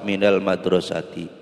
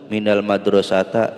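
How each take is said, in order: First: The last word ends with an i vowel. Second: The last word ends with an a vowel. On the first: The speaker calls it right. "Harus dibaca kasroh" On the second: The speaker calls it wrong.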